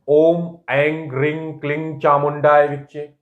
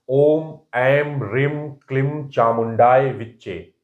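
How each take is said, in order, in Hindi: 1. नासिक्य अक्षर 'ng' की आवाज़ पर खत्म होते हैं। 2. नासिक्य अक्षर 'm' की आवाज़ पर खत्म होते हैं। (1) "और दूसरे तरह से भी बोलते हैं" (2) "मैंने ये बोला"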